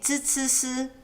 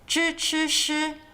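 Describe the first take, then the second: First: The tongue stays flat, sounding like z and s. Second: The tongue is strongly curled back for each sound. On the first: "Others have more flat tongues" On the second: "Some people like to really emphasize the tongue rolling"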